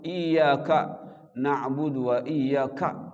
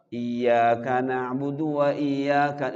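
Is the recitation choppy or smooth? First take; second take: choppy; smooth. First: The 'ka' is pressed and cut off sharply. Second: The words flow on smoothly without breaks. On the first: The speaker calls it wrong. "itu salah justru" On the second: The speaker calls it right.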